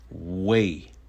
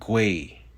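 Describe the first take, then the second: First: The suffix begins with a plain w sound. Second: The suffix begins with a gw sound. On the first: "is pronounced way" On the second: "may be pronounced gui"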